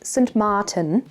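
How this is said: The name is said with Dutch pronunciation.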